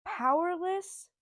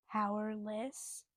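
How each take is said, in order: First: Powerless drawn out slowly, higher and louder; emphatic. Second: Said in the usual way. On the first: Shown as a demonstration. Naming the book she loves, stretched emphasis. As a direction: stretch Powerless out, high and loud.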